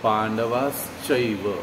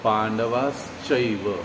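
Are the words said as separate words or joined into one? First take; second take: joined; joined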